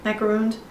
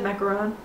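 First: "Macaroons" with a long "oo" and final z; "Macaroons" like the coconut cookie. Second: Macaron with a final "on", no s; "macaron" as the French cookie. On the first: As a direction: stretch "Macaroons" into "-roons". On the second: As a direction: say "macaron" ending in "-ron". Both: Shown as a demonstration. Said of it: "I said macaron".

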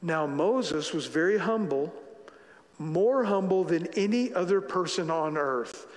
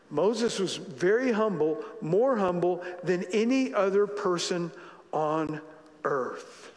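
First: Said in the usual way. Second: Slow, emphatic "very humble", "more humble"; weighty reading over music; stress on very and more. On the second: Shown as a demonstration. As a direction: lean on "very" and "more". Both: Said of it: "Now watch this".

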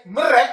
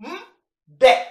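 First: "mre" with an r after the m; wrong plural sound. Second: "mde" as a held hum, pause, then de; correct plural sound. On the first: Teacher showing learners the form to avoid, wrong r sound. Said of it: "We don't say mre". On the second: Teacher giving learners the proper plural, correct d sound. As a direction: say "mde" slowly, r turned into a firm d. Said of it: "we say mde". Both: Shown as a demonstration.

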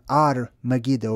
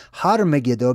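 First: Ar Megiddo opening straight on the vowel; dropped H. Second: Har Megiddo with the H sounded; breathy H. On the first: Teacher shows what it became over time, Ar without H. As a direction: say Ar with the H left off. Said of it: "It's more Ar". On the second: Teacher gives viewers the older form, Har with its H. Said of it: "so much of a breathy ha sound". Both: Shown as a demonstration.

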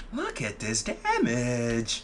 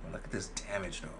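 First: Very slow, stretched-out words; drawn-out exclamation. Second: Said in the usual way. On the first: Real, not acted. Streamer showing off the damage, slow drawn-out exclamation. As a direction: drag out every word for effect. Repeats the remark for effect.

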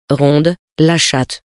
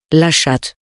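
First: Very slow, savouring "ronde, la chatte". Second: Said in the usual way. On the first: A narrator's reading. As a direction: stretch out "ronde, la chatte" lovingly. Narrator lingers on the cat. ("ronde, la chatte" dit très lentement, en savourant)

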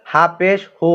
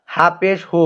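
The two takes are said the same way.

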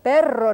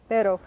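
First: "perro" with a rolled R, louder; emphatic "perro" with a ringing trill on the R; trilled Spanish R. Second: "Pero" with one light tapped R; brief "Pero", no roll on the R; non-trilled Spanish R. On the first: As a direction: roll the R long in "perro". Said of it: "That's that trilled R". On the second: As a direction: flick the R once in "Pero". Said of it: "the trilled and non-trilled R". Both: Shown as a demonstration.

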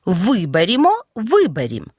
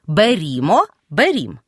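First: «Виберімо», «виберім» stressed on the first syllable Ви; stress on prefix ВИ. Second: «берімо», «берім» stressed on the syllable рі; stress on the ending. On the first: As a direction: punch the opening Ви in «Виберімо», «виберім». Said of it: "із наголошеним префіксом «ви»". («Виберімо», «виберім» з наголосом на префіксі «ви») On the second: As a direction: shift the stress late, onto -рім- in «берімо», «берім». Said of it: "без префікса мають кінцевий наголос". («берімо», «берім» з наголосом на «рі») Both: Shown as a demonstration.

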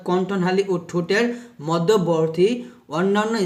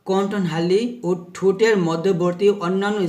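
The two takes are said the same way.

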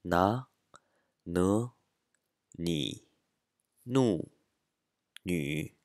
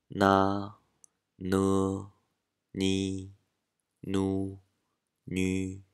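First: "な、ぬ、に、ぬ、に" rising on な and ぬ, then falling; following marked tones. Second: "な、ぬ、に、ぬ、に" each drawn out on a level pitch; first tone. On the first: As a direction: glide up for な、ぬ, down for に、ぬ、に. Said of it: "これに従って発音すると". (「な、ぬ」は上げ、「に、ぬ、に」は下げる声調で) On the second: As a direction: sustain な、ぬ、に、ぬ、に evenly, no rise or fall. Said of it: "全部一声だと". (「な、ぬ、に、ぬ、に」を一声で平らに伸ばして) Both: Shown as a demonstration.

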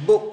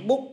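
First: "book" with a clear burst on the final K; teacher stressing the final K of "book"; final K released. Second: Said in the usual way. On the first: Shown as a demonstration. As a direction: pop the K at the end of "book". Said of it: "book, có chữ cờ bật ra". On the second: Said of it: "các bạn thông thường các bạn đọc là book".

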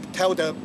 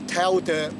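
The two takes are said the same way.

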